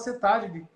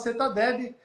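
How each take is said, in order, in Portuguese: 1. O nome termina depois da sílaba 'tad'. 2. O nome termina com uma sílaba 'deb' acrescentada. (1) "aqui a gente fala, na nossa região, a gente fala CETAD" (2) "ali de um certo ponto do Rio de Janeiro para cima, o pessoal fala CETADEB"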